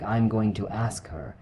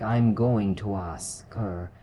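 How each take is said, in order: First: Said in the usual way. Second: Slow "I'm going to ask her", words joined; drawn-out demo of linking in "I'm going to ask her"; linked words. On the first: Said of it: "in a sentence like". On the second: Shown as a demonstration. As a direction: run "ask her" together as one stretched word. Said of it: "almost like one word".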